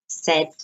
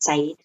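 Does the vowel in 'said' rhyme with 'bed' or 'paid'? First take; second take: bed; paid. First: The vowel is short, rhyming with 'bed'. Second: The vowel is long, rhyming with 'paid'. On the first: The speaker calls it right. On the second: The speaker calls it wrong. "not said"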